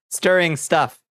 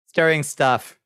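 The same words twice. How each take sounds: The two takes are said the same way.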